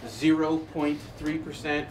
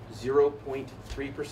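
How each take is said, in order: First: The number is said slowly and deliberately. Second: The number is said at a normal pace.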